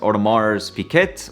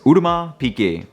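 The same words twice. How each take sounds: First: The name is read with English spelling sounds. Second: The name is said with French sounds. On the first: The speaker calls it wrong. "in English, it kind of sounds like it would read as" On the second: The speaker calls it right. "the name is actually a bit French, so it's supposed to be"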